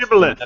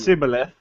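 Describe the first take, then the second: First: The word begins with a 'sh' sound. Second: The word begins with an 's' sound. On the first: The speaker calls it right. "It's a shibboleth" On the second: The speaker calls it wrong. "not a sibboleth"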